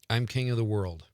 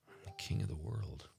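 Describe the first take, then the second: First: It is said plainly, without special emotion. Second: It is said with melodramatic soap opera emotion.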